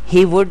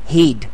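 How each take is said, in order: First: Two separate words are said in full. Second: The words merge into one short syllable.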